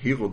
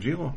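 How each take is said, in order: First: The name begins with an H sound. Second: The name begins with a J sound. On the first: The speaker calls it wrong. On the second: The speaker calls it right.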